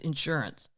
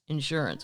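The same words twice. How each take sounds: First: The stress is on the second syllable. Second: The stress is on the first syllable.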